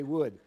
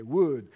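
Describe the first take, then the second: First: Said in the usual way. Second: "Wood" with a long oo, as wooed, Filipino style; Filipino accent. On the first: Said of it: "They can't say Wood". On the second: Retold or imitated. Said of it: "They can only say Wood".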